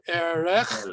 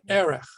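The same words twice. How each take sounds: First: The stress is on the last syllable. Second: The stress is on the first syllable. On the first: The speaker calls it wrong. "the accent is not going to be on the last syllable" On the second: The speaker calls it right. "The accent shifts one syllable up"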